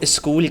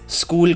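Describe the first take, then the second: First: It is said with an extra vowel sound added. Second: It is said without any added vowel sound. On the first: The speaker calls it wrong. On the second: The speaker calls it right.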